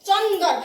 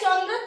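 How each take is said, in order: First: A vowel separates the d and r sounds. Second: The d and r join in one cluster. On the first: The speaker calls it wrong. "ভালো লাগছে শুনতে?" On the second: The speaker calls it right. "তিনটে বর্ণ একসঙ্গে যুক্ত হয়ে"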